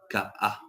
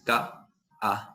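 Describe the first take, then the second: First: A brief catch separates the two vowel sounds. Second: A long gap splits it like two words. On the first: The speaker calls it right. "Ahí se da la breve pausa" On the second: The speaker calls it wrong. "Ni tampoco es tan eh, grande el espacio como para pensar de que es otra palabra diferente"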